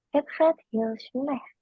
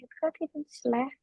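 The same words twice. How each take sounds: First: "het gaat heel slecht" said slowly, word by word; careful slow model for the learner; slow demo. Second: "Het gaat heel slecht" run together smoothly and softer; fluent run. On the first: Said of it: "How can you say it that fast?". (diucapkan pelan kata per kata) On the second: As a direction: say it quick and fluent as practised. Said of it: "dibaca-baca ulang nanti juga lancar lagi". (diucapkan lancar dan lebih cepat) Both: Shown as a demonstration.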